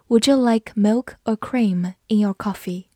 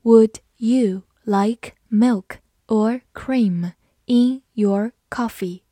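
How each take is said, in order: First: Said in the usual way. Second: Slow, careful question; slow reading. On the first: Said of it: "我们慢慢来读". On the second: Shown as a demonstration. Teacher reading the question slowly for students. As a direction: read it slowly, word by word. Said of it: "好，我们慢慢来读。".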